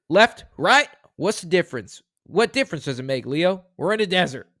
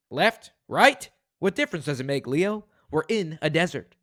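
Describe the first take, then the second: First: High, loud at the start, then settling; dramatic movie read. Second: Second take. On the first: Host reading a movie quote aloud, with a loud high opening. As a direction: punch out the opening like an action hero. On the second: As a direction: rein it in a little. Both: Shown as a demonstration. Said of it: "Let me try that again".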